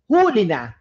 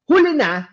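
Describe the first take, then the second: First: It is said with the stress pattern meaning caught. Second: It is said with the stress pattern meaning late. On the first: Someone has been caught. "Pero kung huli na, no? You are catching that criminal" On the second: Someone is late or last. "Kung huli na, nahuhuli. Okay? Last siya"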